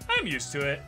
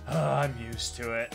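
First: It is said in a light, casual tone. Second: It is said in a weary, exasperated tone. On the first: It is genuinely no bother. "Depending on the tone, I'm used to it can be like" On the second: The speaker is tired of always dealing with it. "Or it can be like"

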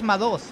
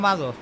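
First: The stress is on the second syllable. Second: The stress is on the first syllable. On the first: The speaker calls it right. "su apellido es Madoz" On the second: The speaker calls it wrong. "No Madoz"

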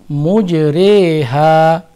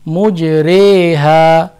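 Both takes have the same delivery.

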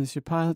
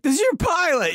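First: It is said in a super calm voice. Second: It is said in a panicked voice.

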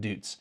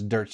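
First: The vowel sounds like 'oo' in 'boots'. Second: The vowel sounds like 'er' in 'dirt'. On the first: The speaker calls it wrong. "not Dutes" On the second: The speaker calls it right. "that's how you pronounce it, is Dirt's"

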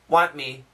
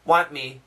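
First: The T in want is dropped completely. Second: The same.

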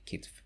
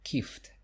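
First: The t sound comes before the f sound. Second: The f sound comes before the t sound. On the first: The speaker calls it right. "So the correct one will be kitf" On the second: The speaker calls it wrong. "some people say kift instead. So it's kift, F and then T"

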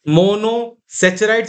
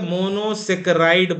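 First: The middle consonant is a 'ch' sound. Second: The middle consonant is a 'k' sound. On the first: The speaker calls it wrong. "कुछ लोग सेचराइड्स भी बोलते हैं, शायद गलत बोलते हो" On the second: The speaker calls it right. "वैसे ये ज्यादा सही है"

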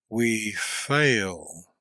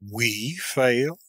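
First: It is a slow, admiring exclamation. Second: It is an indignant question, stressing 'we'. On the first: "with the note of admiration" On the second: "An accent of indignant astonishment, laying the principal emphasis on the word "we.""

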